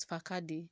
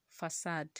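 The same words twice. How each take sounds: First: Facade misread as fa-KA-dee; wrong pronunciation of facade. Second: Facade said as fuh-SAHD; correct pronunciation of facade. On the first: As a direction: say facade with a hard k and a voiced final e. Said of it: "and not facade". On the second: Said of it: "why is F A C A D E". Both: Shown as a demonstration.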